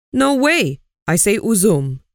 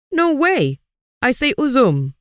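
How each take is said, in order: First: Mild shout. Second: Aziz shouting his choice over the others, pitched high. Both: A narrator's reading. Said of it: "shouted Aziz".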